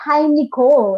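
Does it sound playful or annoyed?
annoyed. It sounds like a negative, annoyed sigh.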